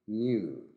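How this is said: It is said with a British accent. "new in British"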